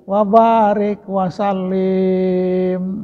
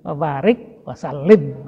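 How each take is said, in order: First: The vowel is drawn out long. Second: The vowel is kept short. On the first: The speaker calls it wrong. "itu salah menurut nahu kan" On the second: The speaker calls it right. "gitu kan, pendek"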